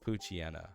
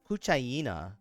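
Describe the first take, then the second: First: The middle is said with a short chee sound. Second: The middle is said like the word hyena. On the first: "It's Puchiena" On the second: "it's Puchaya Puchayena because it's a hyena"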